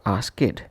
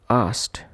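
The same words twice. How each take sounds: First: The ending is pronounced as an extra id syllable. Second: The ending is pronounced as a t sound. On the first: The speaker calls it wrong. "or as it" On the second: The speaker calls it right. "Ed is to be pronounced as t"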